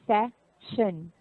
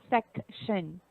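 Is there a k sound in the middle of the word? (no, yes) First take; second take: no; yes. First: The word has no k sound before sh. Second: The word has a k sound before sh. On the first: The speaker calls it right. "there's no k sound there" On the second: The speaker calls it wrong. "not section"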